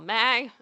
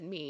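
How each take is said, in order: First: The vowel is an "ay" sound. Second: The vowel is a plain "ee" sound. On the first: "it was all May every every song" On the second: "nobody said me"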